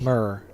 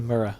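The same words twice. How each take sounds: First: The word is said as one syllable. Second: The word is said with two syllables. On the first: "That's just one. Monosyllabic" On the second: "they don't say mirror"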